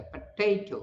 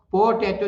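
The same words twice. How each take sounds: First: potato as "puh-TAY-to", middle syllable long and stressed; short weak first syllable, lean on "tay" in potato; stress on second syllable. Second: potato as "PO-tay-to", full first vowel; common faulty pronunciation. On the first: Teacher models correct potato, stressed on second syllable. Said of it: "second syllable पर stress है". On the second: Teacher mimics learners' faulty potato, full "po" first. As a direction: give potato a strong opening "po". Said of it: "जो बोलते हैं वो गड़बड़ है". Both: Shown as a demonstration.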